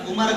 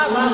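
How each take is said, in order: First: عمر called out loudly in two syllables, umar; loud u-mar for عمر, vowel before the r; wrong pronunciation. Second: عمر called out loudly as one syllable, umr; loud umr for عمر, m and r joined; correct pronunciation. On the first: Preacher repeating the pointed example, wrong pronunciation. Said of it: "غلط". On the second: Preacher repeating the example to the crowd, correct pronunciation. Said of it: "صحیح". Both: Shown as a demonstration.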